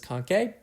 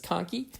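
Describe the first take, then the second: First: It uses a pronunciation that follows the spelling. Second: It uses the American pronunciation of the word. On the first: The speaker calls it wrong. "it looks like it may be pronounced as conchae" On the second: The speaker calls it right. "American pronunciation is conchae"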